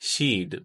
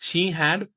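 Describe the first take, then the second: First: The words merge into one short syllable. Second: Two full words are said separately. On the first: "मुख्तसर सूरत" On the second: "फुल फॉर्म"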